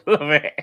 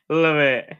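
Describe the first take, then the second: First: High laughing love it; giggling Love it higher; laughing through it. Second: Said in the usual way. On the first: Real, not acted. Laughing at chat joke.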